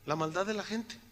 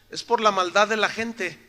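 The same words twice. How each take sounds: First: "La maldad de la gente" repeated much softer, sinking; softened echo of his own point; quiet repeat. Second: Said in the usual way. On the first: Shown as a demonstration. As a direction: let "maldad" drop to a grave soft echo.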